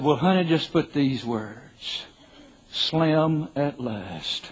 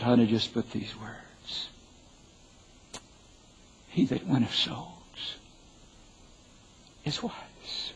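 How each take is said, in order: First: Slow, stretched-out punchline; deadpan joke. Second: Slow, hushed and earnest; sincere, solemn. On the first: Husband jokes to wife about his epitaph, slow deadpan. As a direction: draw out the epitaph slowly for the laugh. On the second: Husband gives wife his true epitaph, quiet and solemn. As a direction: soften right down, leaving weight between phrases. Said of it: "Without being overly pious or super righteous". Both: Retold or imitated.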